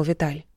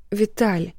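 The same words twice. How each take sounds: First: Said in the usual way. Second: Тихо и дрожа; умоляюще, с лёгкой дрожью; дрожащий голос. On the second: Acted. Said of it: "дрожащим голосом просила его". (дрожащим голосом)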